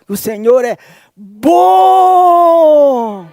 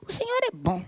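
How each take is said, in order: First: It is said smoothly, with confident, fervent conviction. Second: It is said haltingly, with false starts and hesitation. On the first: The speaker wholeheartedly means the claim. The speaker calls it right. "ele fala assim, ó" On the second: The speaker is unsure about the claim. The speaker calls it wrong. "Pedro não fala assim"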